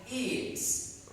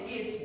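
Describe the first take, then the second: First: The vowel is said long. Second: The vowel is said short. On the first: The speaker calls it right. "we need to read this one longer" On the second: The speaker calls it wrong. "we don't say it's"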